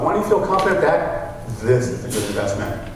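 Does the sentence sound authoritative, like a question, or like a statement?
authoritative. It is said deeper, with a pause, authoritatively. "Now with authority, I'm going to pause"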